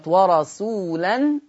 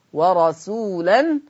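First: Said in the usual way. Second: ورسولا drawn out very slowly with its tanween; slow recitation. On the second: Shown as a demonstration. Teacher recites the word slowly before the transfer. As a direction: draw out ورسولا, nunation heard as nun. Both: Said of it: "هبتدي أعمل فيها نقل".

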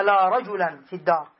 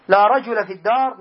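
First: رجلا with nunation, "rajulan"; with tanween. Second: No final n on رجل; رجل with a bare fatha ending; without tanween. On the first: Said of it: "لو كانت منصوبة لقلنا". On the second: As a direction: say رجل as rajula, ending on short -a. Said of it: "فإنها لا تنون". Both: Shown as a demonstration.

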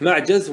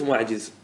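First: معجز said "ma'jaz", with an a; fatha form. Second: ومعجز said "wa-ma'jiz", with an i; kasra form. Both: Shown as a demonstration. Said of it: "الكسر والفتح".

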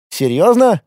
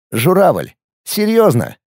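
First: Surprised question. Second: Mocking question. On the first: Acted. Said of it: "удивился сотрудник". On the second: Mocking the crane sculpture.

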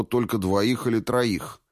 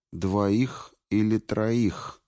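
First: Said in the usual way. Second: Slow, thoughtful echo of двоих или троих. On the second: A narrator's reading. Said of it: "эхом повторила Куртия".

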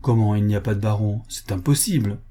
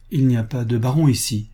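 First: Quick disbelieving question, stress on COMMENT; incredulous echo. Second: Matter-of-fact denial with a falling end; plain statement. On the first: Visitor disputes the servant's answer, incredulous echo. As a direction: throw it back fast, leaning on COMMENT. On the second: Servant girl answers the visitor, plain statement. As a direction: state it simply, letting BARON fall. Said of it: "me répondit la jeune fille". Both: A narrator's reading.

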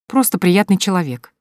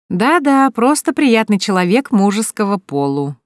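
First: Said in the usual way. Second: Higher, louder mocking echo of просто; mocking scoff. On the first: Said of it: "засмеялась Соня". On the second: A narrator's reading. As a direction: repeat "просто приятный человек" back with a mocking scoff. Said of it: "хмыкнула Вика".

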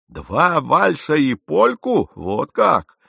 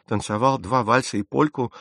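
First: Loud, high, slow disbelieving repeat; drawn-out, scandalised question; incredulous echo. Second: Said in the usual way. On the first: A narrator's reading. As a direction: throw his words back in mocking astonishment. Captain echoes the admission incredulously. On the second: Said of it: "поспешил сказать мистер Хейвуд".

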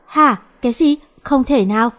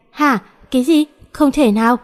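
First: Higher rising disbelief; same shocked outcry. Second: Rising shocked disbelief; shocked outcry. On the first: Girls react again to aunt's demand, shocked outcry. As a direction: blurt the disbelief once more. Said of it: "Vẫn là câu đó". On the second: Girls stunned by aunt's news, shocked outcry. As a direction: blurt it out in shock. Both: A narrator's reading.

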